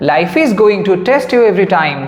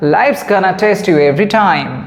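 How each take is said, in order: First: 'Life is going to' is said in full. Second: It is reduced to 'life's gonna'. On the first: "আগেরটা" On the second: "তা না বলে বললাম"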